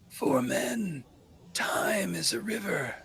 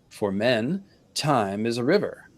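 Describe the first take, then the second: First: It is read in a put-on character voice. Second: It is read in the speaker's ordinary voice.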